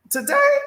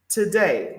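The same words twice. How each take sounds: First: Today sung out far higher, rising at the end. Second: Said in the usual way. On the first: Real, not acted. Host greeting Rev, Today sung out high and rising.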